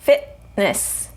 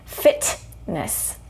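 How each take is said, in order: First: The T is a glottal stop with no air released. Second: The T is released with a puff of air. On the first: The speaker calls it right. "no releasing the air" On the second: The speaker calls it wrong. "I'm not saying fitness. Fitness would release the air"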